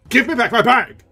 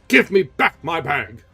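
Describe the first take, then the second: First: Much higher, louder shout; shouted demand. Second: Slow, louder demand; stern demand. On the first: Erik losing patience with Christine, shouting. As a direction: explode on the repeat. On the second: Erik demanding the bag, stern. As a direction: press it, slowly. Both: Acted.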